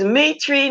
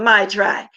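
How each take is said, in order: First: The first syllable sounds like 'meet'. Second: The first syllable sounds like 'my'. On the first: The speaker calls it right. "So it's meat tree" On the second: The speaker calls it wrong. "not my tribe"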